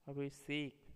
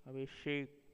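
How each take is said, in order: First: अभिषेक said as "abhiseik" with s; अभिषेक with a hissed s; wrong pronunciation. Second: Said in the usual way. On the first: Shown as a demonstration. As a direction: put s for sh in अभिषेक. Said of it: "अशुद्ध शब्द". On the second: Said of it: "शुद्ध शब्द".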